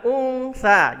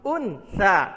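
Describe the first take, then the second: First: The n before s is blurred and hidden. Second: The n before s is said clearly. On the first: The speaker calls it right. "Jadi dibacanya samar" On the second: The speaker calls it wrong. "ataupun jelas"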